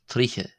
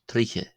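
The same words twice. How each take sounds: No difference in how they are said.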